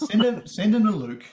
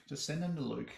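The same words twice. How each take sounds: First: "send them to Luke" said higher and louder, pushing hard on send; emphatic joke. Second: "Just send them to Luke" said softer, tossed off as an afterthought; quiet aside. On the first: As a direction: sell the punchline big. Joking about sending complaints. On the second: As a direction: drop it under your breath. Quiet repeat of the joke. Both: Acted.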